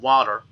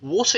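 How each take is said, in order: First: It is said in an American accent. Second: It is said in a British accent.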